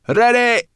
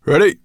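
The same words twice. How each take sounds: First: Very high, loud shout; piercingly high calling out; called back. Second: Loud, raised dragon's call; short, high-energy call. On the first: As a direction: yell it back high and hard. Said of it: "Sorrel called". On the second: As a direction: call it out briskly to the riders. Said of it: "called Firedrake". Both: A narrator's reading.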